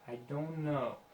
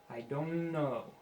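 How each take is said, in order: Both takes have the same delivery.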